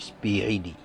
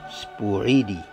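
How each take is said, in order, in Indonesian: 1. Vokal pertama terdengar seperti 'i'. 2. Vokal pertama terdengar seperti 'u'. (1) "itu mesti dibaca spi ya" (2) "bukan uh, spu"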